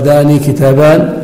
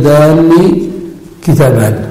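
First: Said in the usual way. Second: داني with the nun held long and doubled; داني كتابان said with a doubled nun. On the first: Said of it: "يمكن أن يقال". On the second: Shown as a demonstration. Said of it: "أو تشدد".

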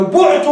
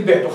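First: "بعت" said bu'tu, opening u vowel. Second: "بعت" said bi'tu, opening i vowel, lower. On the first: Teacher to students, stresses bu'tu with a clear u. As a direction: say "بعت" as bu'tu with a rounded u, pitched up. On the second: Teacher contrasting forms, says bi'tu with an i. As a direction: say "بعت" as bi'tu with a front i, dropping low. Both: Shown as a demonstration. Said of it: "ليست مثل".

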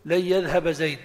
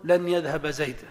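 First: "لن يذهب" with the nun merged into the ya, layyadhhab. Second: "لن يذهب" with a clear nun before the ya, lan yadhhab; nun pronounced. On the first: Teacher showing the class the required merged "لن يذهب". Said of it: "فيجب أن تقول". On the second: Teacher showing the class the forbidden unmerged "لن يذهب". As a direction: keep the nun of "لن" clearly sounded. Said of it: "ولا يجوز أن تقول". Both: Shown as a demonstration.

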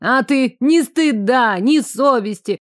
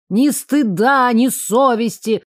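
First: Angry shouting. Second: Indignant scolding. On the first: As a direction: yell after them in outrage. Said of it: "гневные крики раздраконенной женщины". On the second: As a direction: shame them at full voice. Woman berating the departing pair. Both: A narrator's reading.

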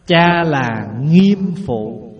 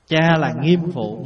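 First: "nghiêm" drawn out very slowly and stressed; slow emphatic teaching. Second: Said in the usual way. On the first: Shown as a demonstration. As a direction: say "Cha là nghiêm phụ" slowly, leaning on "nghiêm".

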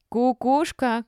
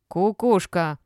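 First: High, loud jeer; accusing shout. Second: Loud insult, less shrieky; accusing jeer. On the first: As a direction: call it out as an insult. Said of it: "крикнула какая-то из старушек". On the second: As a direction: hurl it loudly without much pitch rise. Old woman repeats insult in row. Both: A narrator's reading.

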